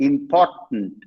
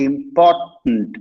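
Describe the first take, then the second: Both takes have the same delivery.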